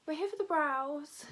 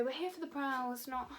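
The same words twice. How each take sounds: First: Said in the usual way. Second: Softer, slightly off-voice delivery; accidental odd voice; odd-sounding slip. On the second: Real, not acted. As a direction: say it slightly oddly, then break off. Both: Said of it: "why did I sound like that".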